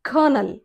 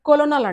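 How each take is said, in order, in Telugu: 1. ఇది రెండు అక్షరాలుగా పలుకుతారు, 'ker-nel'. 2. ఇది మూడు అక్షరాలుగా పలుకుతారు, 'ko-lo-nel'. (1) "అది కర్నల్" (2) "రాంగ్ ప్రొనౌన్సియేషన్, అది కొలోనల్ కాదు"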